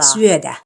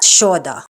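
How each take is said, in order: First: The word begins with a plain s sound. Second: The word begins with an sh sound. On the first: The speaker calls it right. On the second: The speaker calls it wrong. "not shoda"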